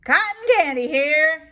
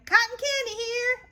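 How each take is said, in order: First: Loud, quick vendor call; vendor's yell. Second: Very high echo of the vendor; Eloise echoing. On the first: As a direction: hawk cotton candy over the crowd. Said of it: "yells the boy". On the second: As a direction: copy the call gleefully. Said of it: "I say". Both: Acted.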